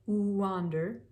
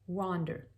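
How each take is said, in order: First: It starts with a drawn-out oo vowel. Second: It starts with a quick, light w glide. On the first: The speaker calls it wrong. "that's a little too much" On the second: The speaker calls it right. "But there has to be something there"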